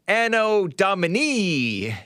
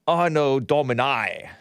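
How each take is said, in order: First: It is pronounced the Latin way. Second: It is pronounced the British way. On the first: "I think that's how you pronounce it in in uh in Latin" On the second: "if you are British"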